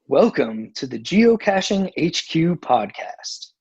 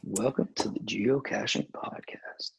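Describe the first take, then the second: First: It is said in a lively, energetic way. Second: It is said in a lazy, casual way.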